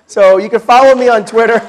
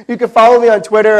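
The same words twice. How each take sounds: First: Louder over laughter. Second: Repeated louder. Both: Real, not acted.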